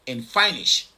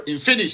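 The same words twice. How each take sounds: First: Finnish said as "FINE-ish"; mispronounced Finnish. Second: Finnish said as "FIN-ish"; corrected Finnish. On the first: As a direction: say Finnish with a long "eye" in the first syllable. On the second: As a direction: say Finnish with a short "i" in the first syllable. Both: Real, not acted.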